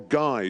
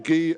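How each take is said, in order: First: The name is pronounced with an English sound. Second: The name is pronounced with a French sound.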